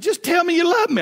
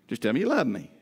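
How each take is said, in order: First: High whiny plea. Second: Said in the usual way. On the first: Shown as a demonstration. Husband begging his wife in bed for reassurance, high whiny plea. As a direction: squeak it out like a needy kid begging. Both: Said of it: "now she knows what's coming".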